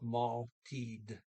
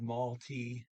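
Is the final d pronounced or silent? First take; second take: pronounced; silent. First: The final d is pronounced. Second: The final d is silent. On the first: The speaker calls it right. "it's one time you do pronounce the D" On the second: The speaker calls it wrong. "I didn't pronounce the D"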